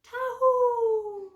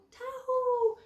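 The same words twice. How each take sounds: First: High, loud ringing call to the sheep; shepherd's call. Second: High call that falls away at the end; shepherd's call. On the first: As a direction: call the flock from far off, high and bright. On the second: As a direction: let the call drop as it ends. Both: Acted. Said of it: "So when the shepherd goes".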